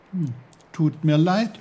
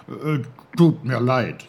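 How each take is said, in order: First: Put-on higher, louder boy's apology; lifted apology, rising at the end; Peter, sympathetic. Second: Loud, halting apology; put-on uncle voice, falling at the end; Onkel Pfefferkorn, sorry. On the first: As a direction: say sorry in a young lifted voice. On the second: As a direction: blurt a sorry as the clumsy little uncle. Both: A narrator's reading.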